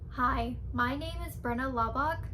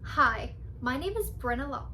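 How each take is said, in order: First: The voice is flat and monotone. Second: The voice has lively pitch variation. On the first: The speaker calls it wrong. "do not sound robotic" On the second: The speaker calls it right. "you need to have a little bit of voice inflection"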